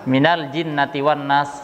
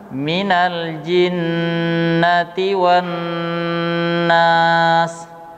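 First: The nasal sounds are cut short. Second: The nasal sounds are held long. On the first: The speaker calls it wrong. "ada yang membaca" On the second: The speaker calls it right. "yang benar adalah"

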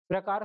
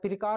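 First: The opening p and r form one tight cluster. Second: An extra vowel splits the opening p and r. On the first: "मुझे तो लगता है कि मैं ठीक बोल रहा हूँ" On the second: "जैसे आप प्रकार को पिरकार बोलते हैं"

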